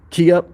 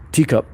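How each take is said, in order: First: The name begins with a K sound. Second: The name begins with a T sound. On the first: The speaker calls it right. "it sounds like Key Up" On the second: The speaker calls it wrong. "Forgive me for saying your name wrong"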